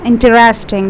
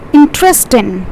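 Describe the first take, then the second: First: The word is said with four syllables. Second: The word is said with three syllables. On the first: The speaker calls it wrong. "that's totally wrong" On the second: The speaker calls it right. "We have three syllables over here"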